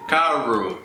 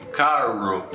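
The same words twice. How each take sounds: First: Carro with an L sound, kalo; carro mispronounced with L; wrong L-like R. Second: Carro with a throaty H-like R, kaho; carro the Brazilian way; carro with a rough H-sound R; correct guttural R. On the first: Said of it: "ninguém vai dizer". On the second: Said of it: "ninguém vai dizer carro". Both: Shown as a demonstration.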